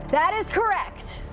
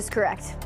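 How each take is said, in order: First: It is said with lively, enthusiastic energy. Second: It is said flatly, with little energy.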